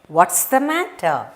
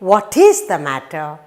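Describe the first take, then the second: First: 'What is' is contracted into one syllable. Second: Both words 'what is' are said in full. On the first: "you normally say what's the matter" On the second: "Instead of saying what is the matter"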